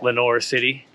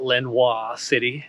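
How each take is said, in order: First: Lenoir is pronounced the English way. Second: Lenoir is pronounced the French way. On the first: The speaker calls it right. "But it's Lenoir City" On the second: The speaker calls it wrong. "so I thought it was French"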